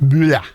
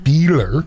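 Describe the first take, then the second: First: The name is said with a German pronunciation. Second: The name is said with an English pronunciation. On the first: This is how people from Germany say the name. "in German?" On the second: This is how the name was said while growing up. "I grew up with Beeler"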